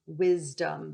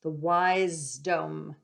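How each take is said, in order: First: Said in the usual way. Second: "wisdom" drawn out slowly as WISE-DOME; wise-dom pronunciation. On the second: Shown as a demonstration. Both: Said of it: "the ones that are of the wise".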